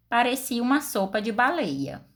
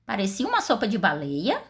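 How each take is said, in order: First: Falling statement ending on "baleia"; "Parecia uma sopa de baleia" with a final fall; statement tune. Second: Rising question on "baleia"; "Parecia uma sopa de baleia?" as a genuine question; question tune. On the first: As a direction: state it flatly as fact. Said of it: "eu fiz uma afirmação". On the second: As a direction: ask it, voice lifting at the end. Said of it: "eu fiz uma pergunta". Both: Shown as a demonstration.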